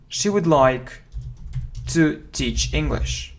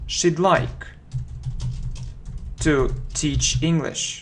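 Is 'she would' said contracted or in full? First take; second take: full; contracted. First: She would is said as two full words. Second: She would is contracted to one syllable. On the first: "it's a full form" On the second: "Short form"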